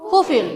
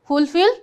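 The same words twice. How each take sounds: First: "fulfill" without first L, falling end; American pronunciation. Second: "fulfill" with first L sounded, rising end; British pronunciation. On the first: Teacher repeats the contrast for students, "fulfill" American-style without first L. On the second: Teacher repeats the contrast for students, "fulfill" British-style with first L sounded. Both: Shown as a demonstration. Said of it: "example of British versus American".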